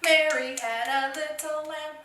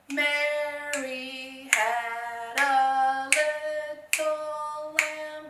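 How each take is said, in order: First: It is said fast. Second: It is said slowly.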